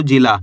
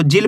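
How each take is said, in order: First: जिला with an open aa at the end; final aa sounded. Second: जिल closing on the l; no final aa. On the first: Teacher contrasting spellings with the aa sign, जिला ending on aa. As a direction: add a full aa after the l in जिला. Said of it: "आ की मात्रा last के अंदर होएगी". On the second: Teacher contrasting spellings without the aa sign, जिल ending on l. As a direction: say जिल with nothing after the l. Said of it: "अगर आ की मात्रा नहीं होएगी". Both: Shown as a demonstration.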